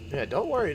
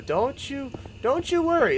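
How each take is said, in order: First: Said in the usual way. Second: High, loud playful "don't you worry"; sing-song reassurance. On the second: Real, not acted. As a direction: coo it teasingly, pitched way up. Teasing reassurance to viewers.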